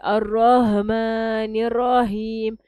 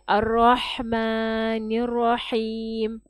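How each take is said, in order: First: The h is a plain, light h sound. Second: The h is a deep, breathy throat sound. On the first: The speaker calls it wrong. "the problem here is people pronounce it as a Ha" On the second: The speaker calls it right. "That is a Ha"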